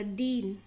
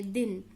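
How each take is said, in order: First: "दीन" with a drawn-out ee; long vowel. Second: "दिन" with a short, quick i; short vowel. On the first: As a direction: hold the ee in "दीन". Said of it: "देर करके बोला दीन". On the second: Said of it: "जल्दी से बोला आपने दिन". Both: Shown as a demonstration.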